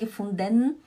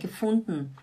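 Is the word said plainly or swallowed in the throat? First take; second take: plain; swallowed. First: The word is said plainly and clearly. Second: The word sounds swallowed, from the throat. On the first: The speaker calls it wrong. "Não é gefunden" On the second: The speaker calls it right. "Parece que eles engolem alguma coisa aqui"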